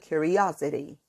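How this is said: It is said in an American accent. "um americano, curiosity"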